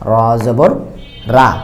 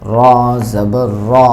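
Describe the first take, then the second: First: The final vowel is an open, clear 'aa' sound. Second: The final vowel is dark and heavy, not 'aa'. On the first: The speaker calls it wrong. "আকারের উচ্চারণ রা, কিন্তু এটা রা হবে না" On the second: The speaker calls it right. "বলতে হবে র"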